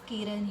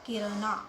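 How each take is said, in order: First: The name ends on the n consonant. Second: The name ends with an extra final vowel. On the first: The speaker calls it right. "ए is silent" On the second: The speaker calls it wrong. "उसे pronounce कैसे करते हैं, किरणा, नहीं"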